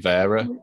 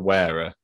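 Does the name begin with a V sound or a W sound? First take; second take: V sound; W sound. First: The name begins with a V sound. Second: The name begins with a W sound. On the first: The speaker calls it right. "but it's actually Vera" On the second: The speaker calls it wrong. "you got Wera"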